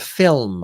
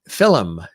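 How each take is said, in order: First: The word is said with one syllable. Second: The word is said with two syllables.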